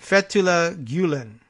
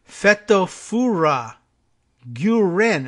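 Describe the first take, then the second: First: FETHULLAH GULEN as "FET-oo-la GYOO-len", with L's; careful, slightly raised "FET-oo-la GYOO-len"; preferred pronunciation. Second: FETOFURA GUREN sounded out loudly as "FET-oh-FOO-ra GYOO-ren"; loud, deliberate FETOFURA GUREN, R in place of L; R's for L's. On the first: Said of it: "better off with the other one". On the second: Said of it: "and they're using R's". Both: Shown as a demonstration.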